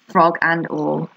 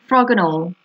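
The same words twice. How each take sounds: First: Slow emphasis. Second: Said in the usual way. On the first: Acted. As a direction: draw out frog and all as an echo.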